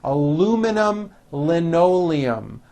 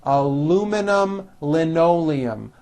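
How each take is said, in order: The two takes are said the same way.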